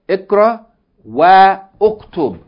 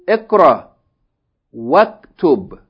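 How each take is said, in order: First: Uktub starts fresh with its own vowel sound. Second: Wa runs straight into the k sound. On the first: The speaker calls it wrong. "you don't say Ikra Wa Uktub" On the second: The speaker calls it right. "you join the waw with fatha to the kaf"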